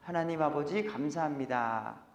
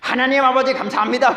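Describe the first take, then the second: First: It is said calmly, like normal conversation. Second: It is said loudly and fervently, not conversationally. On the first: This is how this congregation prays. "그냥 대화하듯이 하잖아요" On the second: This is how other churches pray. "다른 곳에 가시면 다른 걸 경험하시게 될 거예요"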